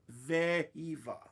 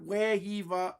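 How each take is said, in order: First: The name begins with a V sound. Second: The name begins with a W sound. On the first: The speaker calls it right. "Pronounce the V" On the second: The speaker calls it wrong. "not Wehiva"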